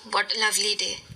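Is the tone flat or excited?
flat. It is said flatly, without emotion.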